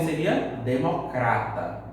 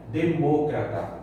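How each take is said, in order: First: Democrata with the stress on "cra"; Portuguese democrata. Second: Demócrata stressed on "mó", slowly; Spanish demócrata. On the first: Teacher giving the Portuguese form, Portuguese stress. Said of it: "Se fosse em português". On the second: Teacher repeating the Spanish form, Spanish stress. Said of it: "Em espanhol é". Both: Shown as a demonstration.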